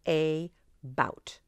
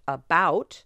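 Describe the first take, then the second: First: The first vowel is a full A, equally stressed. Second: The first vowel is reduced to a weak uh.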